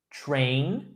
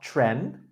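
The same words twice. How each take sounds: First: Train with a long A vowel; "Train" modelled with a full "ay" glide; correct pronunciation. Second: Tren with a short E instead of long A; mispronounced train. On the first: Teacher repeating the correction, "Train" with long A. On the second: Teacher contrasting the slip, "tren" with short E. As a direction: say "tren" rhyming with "ten". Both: Shown as a demonstration. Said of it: "not tren".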